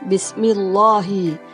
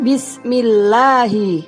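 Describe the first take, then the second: First: The L is thick, with an O-like vowel. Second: The L is thin, with an A-like vowel. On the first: The speaker calls it wrong. "bukan Bismillahi" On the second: The speaker calls it right. "bunyinya terdengar A. Yang betul membacanya Bismillahi"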